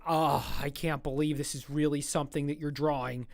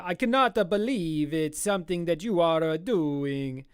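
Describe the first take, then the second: First: Said in the usual way. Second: Put-on Italian accent. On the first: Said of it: "Or he's Italian, so he'd be like". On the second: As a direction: play an amazed Italian with a thick mock accent. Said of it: "That's a good Italian accent".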